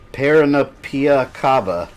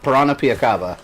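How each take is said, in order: First: The name is said slowly and haltingly. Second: The name is said quickly and smoothly. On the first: The speaker calls it wrong. "I'm sure I pronounced that horribly" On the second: The speaker calls it right. "Let me say it fast"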